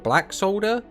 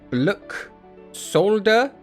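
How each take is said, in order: First: The first part is said as the word black. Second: The first part is said as one word, bluk. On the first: "That sounds the best" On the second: "how do we pronounce this?"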